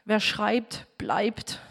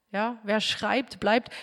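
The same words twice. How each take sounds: First: Said in the usual way. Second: "wer schreibt, bleibt" slowed down and softer, each word weighed; quieter, deliberate repeat of the saying; slow emphatic proverb. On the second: Shown as a demonstration. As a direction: let the proverb sink in slowly. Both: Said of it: "altes deutsches Sprichwort".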